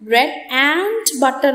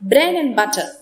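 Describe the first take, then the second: First: Every sound of 'and' is said clearly. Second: The 'and' shrinks and some sounds drop. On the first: The speaker calls it wrong. "അത്രയ്ക്ക് അങ്ങ് തെളിച്ച് പറയാറില്ല" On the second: The speaker calls it right. "In connected speech, in order to maintain the rhythm"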